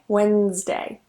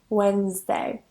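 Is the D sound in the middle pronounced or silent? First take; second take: silent; silent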